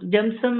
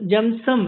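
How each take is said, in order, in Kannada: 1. ಈ ಹೆಸರನ್ನ ಸಣ್ಣ 'u' ತರದ ಸ್ವರದಲ್ಲಿ ಹೇಳ್ತಾರೆ. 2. ಈ ಹೆಸರನ್ನ ಸಣ್ಣ 'u' ತರದ ಸ್ವರದಲ್ಲಿ ಹೇಳ್ತಾರೆ.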